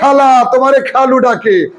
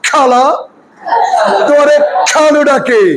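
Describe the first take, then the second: First: The kh sounds have normal, light breath. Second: The kh sounds have a strong burst of air. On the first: "এটা তো বাংলা খ" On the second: "ইংরেজি খ কেমন হবে সেটা বলে দেই"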